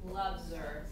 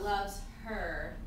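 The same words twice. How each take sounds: First: The h in 'her' is dropped and linked. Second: The h in 'her' is clearly pronounced. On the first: This is how it sounds in quick speech. "you'll probably hear something like loves her" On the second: This is less usual in quick speech. "not loves her"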